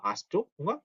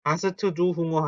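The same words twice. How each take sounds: First: "hast du Hunger" with "hast du" fused as "hastu"; naturally linked. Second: "hast du Hunger" with "hast du" split as "ha-seu-teu du"; unlinked syllables. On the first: Teacher modelling the correct question, smoothly linked. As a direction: link "hast du" into one unit before "Hunger". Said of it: "자연스럽게 발음이어서". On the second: Teacher showing what to avoid, choppy Korean-style syllables. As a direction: add vowels after s and t in "hast du". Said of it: "hast du Hunger 하지 마시고". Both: Shown as a demonstration.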